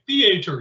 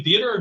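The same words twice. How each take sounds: First: "theater" said thee-AY-ter, stress on the second syllable, a little higher; mock-proper pronunciation. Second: "theater" said THEE-uh-ter, stress on the first syllable; plain THEE-uh-ter; ordinary pronunciation. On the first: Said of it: "You gotta say it properly". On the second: Retold or imitated. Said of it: "You put the wrong emphasis on one syllable".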